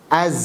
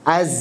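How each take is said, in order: Both takes have the same delivery.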